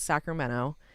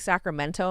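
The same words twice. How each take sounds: First: The T sound is dropped. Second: The T sound is clearly pronounced. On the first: This is how Northern Californians say it. The speaker calls it right. "Like we take the T out of everything" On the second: This is how outsiders say it. The speaker calls it wrong. "if there is a T like Sacramento, people who say Sacramento"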